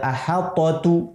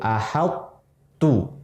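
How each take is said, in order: First: The t is released with an audible bounce. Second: The t is held briefly, then merges without bounce. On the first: The speaker calls it wrong. "Tapi tidak diqalqalahkan to-nya, tidak ahal tu" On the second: The speaker calls it right. "Idgham naqis itu huruf to-nya masih terasa"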